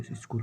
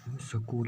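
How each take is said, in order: First: "स्कूल" with s and k joined, as skool; no vowel inside the opening cluster of "स्कूल"; correct pronunciation demo. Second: "स्कूल" split open, as sa-kool; wrong pronunciation demo. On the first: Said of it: "स्कूल होता है". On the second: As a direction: put a short vowel between s and k in "स्कूल". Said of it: "स्कूल नहीं होता है". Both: Shown as a demonstration.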